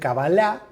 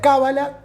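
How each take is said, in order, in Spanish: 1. El acento recae en una sílaba posterior. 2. El acento recae en la primera sílaba.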